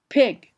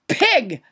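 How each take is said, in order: First: The p has a gentle, soft release. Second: The p has a strong, popping burst of air. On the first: The speaker calls it right. "you say" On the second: The speaker calls it wrong. "not pig"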